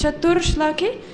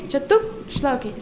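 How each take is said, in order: First: "Chatur Shloki" with an R before Shloki; common mispronunciation. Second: "Chatuk Shloki" with a scratchy k-like catch; scratched visarga. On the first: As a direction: show the devotees' mistake, R in "Chatur Shloki". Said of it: "Devotees often mispronounce". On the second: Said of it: "pronounced as a scratching sound". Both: Shown as a demonstration.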